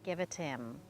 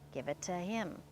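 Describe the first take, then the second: First: The h in 'him' is dropped and linked. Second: The h in 'him' is pronounced.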